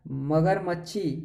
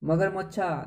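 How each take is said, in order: First: Drawn-out मगरमच्छी, said slowly as if doubtful; teasing wrong answer. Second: मगरमच्छा said with a joking lilt; mocking wrong answer. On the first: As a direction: stretch मगरमच्छी playfully. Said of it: "कह रहे नहीं है।". (चिढ़ाते हुए गलत उत्तर) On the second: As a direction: tease मगरमच्छा as absurd. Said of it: "देखा क्या कभी मगरमच्छा?". (मज़ाक उड़ाते हुए) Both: Shown as a demonstration.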